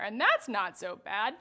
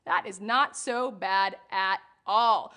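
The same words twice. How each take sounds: First: Said in the usual way. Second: Not stressed, slow and drawn out. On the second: Shown as a demonstration. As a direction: lean on the word not, slowly. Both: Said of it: "repeats with emphasis".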